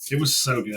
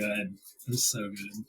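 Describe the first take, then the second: First: Said in the usual way. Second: Soft, slowed wistful echo. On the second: Real, not acted. Repeats the line.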